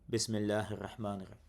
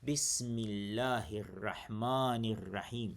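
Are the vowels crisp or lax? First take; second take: lax; crisp. First: The vowels are soft and lax. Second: The vowels are crisp and sharp. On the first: The speaker calls it wrong. "I don't say" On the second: The speaker calls it right. "Sharp, very sharp"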